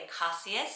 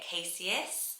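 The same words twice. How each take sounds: First: The name is said with a traditional vowel. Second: The name is said with a British vowel. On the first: "the tradition will be Acacius" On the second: "just the way that I would say it in British"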